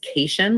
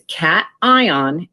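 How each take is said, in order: First: It is said as one word rhyming with vacation. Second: It is said as separate syllables, cat-eye-on. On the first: The speaker calls it wrong. "like a vacation, but that is not what this word is" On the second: The speaker calls it right. "we pronounce them as separate syllables"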